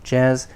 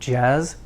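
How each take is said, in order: No difference in how they are said.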